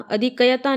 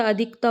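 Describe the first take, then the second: First: अधिकयता with extra "ya"; wrong form demo. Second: अधिकता with no "ya"; correct form demo. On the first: Teacher shows the mistake, अधिकयता with an extra syllable. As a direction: say अधिकयता as "a-dhi-ka-ya-taa". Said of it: "नहीं होता". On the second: Teacher corrects it, अधिकता with k straight into taa. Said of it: "होता है". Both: Shown as a demonstration.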